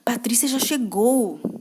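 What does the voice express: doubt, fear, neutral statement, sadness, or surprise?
fear. It is said with a fearful tone. The speaker is afraid of the arrival.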